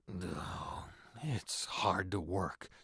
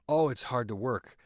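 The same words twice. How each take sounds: First: A non-verbal human sound comes before the line. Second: The line is said plainly with no added sound. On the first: "just adding that pre preamble" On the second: "before delivering the line"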